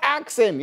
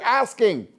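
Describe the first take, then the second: First: The word is said with a 'ks' sound. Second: The word is said with an 'sk' sound. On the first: The speaker calls it wrong. "It's not axing" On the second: The speaker calls it right. "You're asking"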